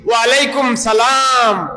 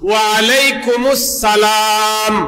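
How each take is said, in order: First: The first word ends in 'kum', no linking syllable. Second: The first word ends in 'kumus', linking into salam. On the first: The speaker calls it wrong. "অনেকে বলি ওয়ালাইকুম সালাম" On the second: The speaker calls it right. "না না, বিষয়টা এভাবে না"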